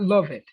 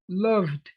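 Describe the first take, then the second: First: The ending is an extra syllable, like "love it". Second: The ending is a plain d with no extra syllable. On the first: The speaker calls it wrong. "not love it" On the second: The speaker calls it right.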